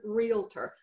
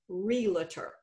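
First: The sounds are in their standard order. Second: Some sounds in the word are transposed. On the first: The speaker calls it right. "It's the word realtor" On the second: The speaker calls it wrong. "how many of my educated friends pronounce this word realtor"

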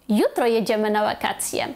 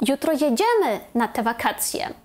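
First: The stress falls on the first word. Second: The stress falls on the second word. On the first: It is tomorrow that we are going. "якщо ми хочемо підкреслити, що ми їдемо саме завтра" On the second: We really are going on that holiday. "якщо ми хочемо підкреслити слово «jedziemy»"

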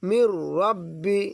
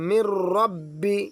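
The two takes are said the same way.

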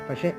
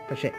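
The two takes are said the same way.

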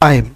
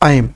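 First: It is said as one syllable with the vowel gliding. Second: The same.

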